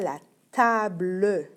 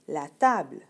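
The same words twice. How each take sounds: First: A final E vowel is sounded after the L. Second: The final E is silent after the L. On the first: The speaker calls it wrong. "on ne dit pas" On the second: The speaker calls it right. "le e, on ne l'entend pas vraiment à la fin"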